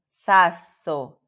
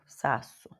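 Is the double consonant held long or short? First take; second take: long; short. First: The middle consonant is held long. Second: The middle consonant is short, not lengthened. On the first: This is how Italians say it. The speaker calls it right. "Como que os italianos falam?" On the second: This is how Portuguese speakers read it. The speaker calls it wrong. "a gente lê isso aqui como"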